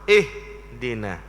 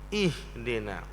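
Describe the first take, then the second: First: The opening sound is forceful and harsh. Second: The opening sound is soft and gentle. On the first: The speaker calls it wrong. "Macam mana baca dengan kasar?" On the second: The speaker calls it right. "tapi baca dengan lembut"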